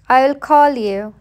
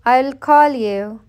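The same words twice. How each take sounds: The two takes are said the same way.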